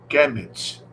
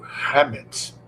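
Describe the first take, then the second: First: The word begins with a hard K sound. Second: The word begins with a guttural, rasping sound. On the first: The speaker calls it wrong. "o termo Kemet" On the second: The speaker calls it right. "ou melhor dizendo, Hamet, ... essa pronúncia mais aproximada em relação à pronúncia antiga egípcia"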